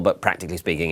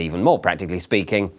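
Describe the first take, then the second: First: Said in the usual way. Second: Deadpan escalation, weight on "more"; stress on more. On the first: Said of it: "and even more practically speaking". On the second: Shown as a demonstration. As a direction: push "more" to top the last phrase.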